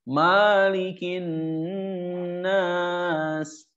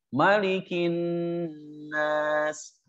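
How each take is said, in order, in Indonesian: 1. Vokal pertama 'ma' panjang. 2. Vokal pertama 'ma' pendek. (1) "Kadang suka ada yang baca maknya jadi panjang" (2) "Ini maknya pendek ya di surat An-Nas ya"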